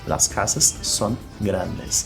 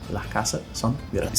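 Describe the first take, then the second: First: The final S sounds are clearly pronounced. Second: The final S sounds are weakened or dropped. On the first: "eles vão pronunciar muito claramente as letras S no final das palavras" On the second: "esse S ele vai ser reduzido"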